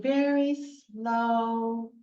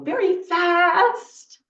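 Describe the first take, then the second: First: "very slow" stretched right out. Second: Quick, louder burst on "very fast". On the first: Teacher showing children opposites with a scarf, very slow. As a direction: draw out "slow" long and steady. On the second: Teacher showing children opposites with a scarf, very fast. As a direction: punch out "very fast". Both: Shown as a demonstration. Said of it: "I can do opposites".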